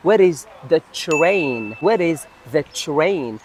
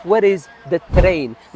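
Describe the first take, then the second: First: Train with tr blended as "chr"; correct pronunciation. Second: Train with a separate t and r; common mispronunciation. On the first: Teacher modelling the blended tr in train for learners. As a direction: say train slowly as "chrain". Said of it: "تي آر في اللغة الإنجليزية مع بعض". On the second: Teacher imitating learners' mistake, train with a plain t. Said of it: "بزاف ينطقوها ليكيب". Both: Shown as a demonstration.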